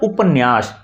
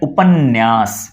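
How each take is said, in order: First: The middle 'n' sound is said once. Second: The middle 'n' sound is doubled. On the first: This is how the word is written. "शुद्ध रूप से लिखा जाता है" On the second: This is how the word is actually spoken. "उच्चारित करते हैं तो कहते हैं"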